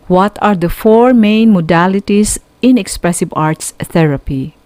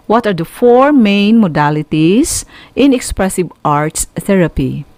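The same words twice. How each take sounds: The two takes are said the same way.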